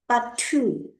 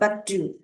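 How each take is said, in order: First: The middle consonant sounds like a Mandarin t. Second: The middle consonant sounds closer to d. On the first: The speaker calls it wrong. "a Chinese student will read it as batu" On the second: The speaker calls it right. "but not batu ... in Bahasa Indonesian, it read it as d"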